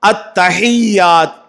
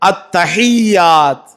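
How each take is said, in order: Both takes have the same delivery.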